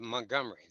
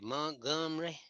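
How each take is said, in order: First: It is said in a general, non-local way. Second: It is said in a local Southern way. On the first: This is how outsiders say it. "now they don't say" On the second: This is how the locals say it. "they say"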